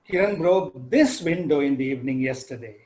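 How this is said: The stress falls on the word this. It was this particular window, not another one. "So I highlight the word this window"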